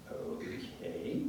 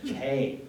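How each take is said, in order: First: OKAY stretched slowly with a rising end; drawn-out doubtful okay. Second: OKAY louder, dropping firmly at the end; emphatic falling okay. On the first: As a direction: say OKAY long, high and soft, lifting it like a question. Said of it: "Or very different than". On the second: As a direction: hit OKAY hard, then let it fall. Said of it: "All very different meanings". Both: Shown as a demonstration.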